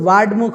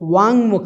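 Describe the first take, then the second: First: A d sound comes before mukh. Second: A plain nasal ng sound comes before mukh. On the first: The speaker calls it wrong. "वो भी नहीं है" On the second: The speaker calls it right. "ङ है"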